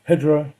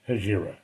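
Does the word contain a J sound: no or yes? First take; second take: No; Yes. First: The word is said without a J sound. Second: The word is said with a J sound. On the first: "I believe it's pronounced Hijra. That's the pronunciation that, that should be said" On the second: "New Jersey realness and just say Hijra. I'm giving you a J just for fun"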